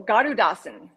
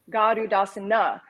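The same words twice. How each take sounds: First: Garudasana ending on N, as "garudasan"; silent final A. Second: Garudasana ending in a voiced "na"; Garudasana, closing vowel fully voiced; final A sounded. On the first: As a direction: say Garudasana without its last A. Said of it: "without the A at the end". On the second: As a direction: say Garudasana with its last A pronounced. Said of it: "because it's always silent". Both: Shown as a demonstration.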